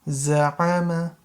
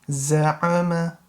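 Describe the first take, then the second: Both takes have the same delivery.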